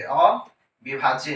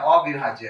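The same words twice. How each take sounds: First: अविभाज्य stretched long, very slow; drawn out slowly. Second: Said in the usual way. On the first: Shown as a demonstration. Teacher stressing अविभाज्य to the class, slowly. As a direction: drag out अविभाज्य so it sticks. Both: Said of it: "परमाणु क्या है".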